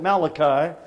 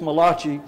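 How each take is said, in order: First: The name is said in a plain English way. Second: The name is said in an Italian-style way. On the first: "some people mispronounce that Malachi" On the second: "but he was Italian, it is Malachi"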